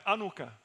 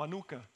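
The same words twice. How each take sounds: First: "anuka" with stress on the first syllable; first pronunciation variant. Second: "anuka" with stress on the middle syllable; second pronunciation variant. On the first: Preacher offers one way to say "anuka", stressed AH-noo-ka. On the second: Preacher offers another way to say "anuka", stressed ah-NOO-ka. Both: Shown as a demonstration. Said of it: "no sé cómo pronunciarlo correctamente".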